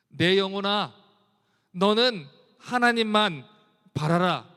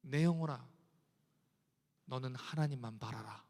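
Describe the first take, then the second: First: Loud and slow, each word pressed; loud exhortation. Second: Soft, much lower, inward plea to the soul; hushed. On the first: Preacher loudly commands his soul to wait on God. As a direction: command your soul with full force. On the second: Preacher quietly tells his own soul to hope in God. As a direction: speak it softly to your own soul. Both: Acted. Soft then loud repeat.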